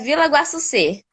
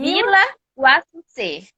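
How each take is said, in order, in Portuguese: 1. O nome é falado rápido. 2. O nome é falado devagar.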